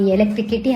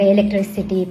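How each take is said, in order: First: The syllable after 'tri' starts with a k sound. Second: The syllable after 'tri' starts with an s sound. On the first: The speaker calls it wrong. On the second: The speaker calls it right.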